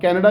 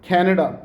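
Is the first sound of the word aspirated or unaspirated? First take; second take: unaspirated; aspirated. First: The first k sound has no puff of air. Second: The first k sound has a strong puff of air. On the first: This is how local speakers say it. The speaker calls it wrong. "अब कैनेडा कहते हैं हम लोग" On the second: This is how Americans say it. The speaker calls it right. "The American people they से it like कैनेडा"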